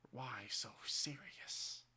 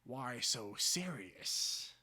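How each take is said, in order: First: Very slow, softer menace; slow quiet menacing line; softer Joker father. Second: Very slow drawn menace; slow menacing Joker line; Joker father. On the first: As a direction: breathe it slowly, creeping. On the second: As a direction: stretch every word, threatening. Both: Acted. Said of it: "My father sees me".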